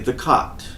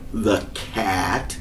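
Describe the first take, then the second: First: The vowel is a soft, open British A. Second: The vowel is a flat, front A sound. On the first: "like the British do" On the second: "a really strange, out of bounds A sound"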